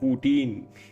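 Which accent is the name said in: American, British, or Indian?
Indian. The name is said in an Indian accent. "Indian says"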